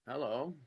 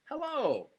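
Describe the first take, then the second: First: It is said in a seductive way. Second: It is said in a warm, welcoming way.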